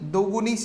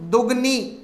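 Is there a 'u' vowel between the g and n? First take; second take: yes; no. First: A 'u' vowel is heard between g and n. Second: No vowel is heard between g and n. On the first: The speaker calls it right. "दुगुनी शब्द होगा" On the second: The speaker calls it wrong. "ने होकर"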